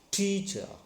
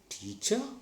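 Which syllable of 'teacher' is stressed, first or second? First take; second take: first; second. First: The stress is on the first syllable. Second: The stress is on the second syllable. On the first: The speaker calls it right. "First you see on first syllable" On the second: The speaker calls it wrong. "Now stress on second syllable"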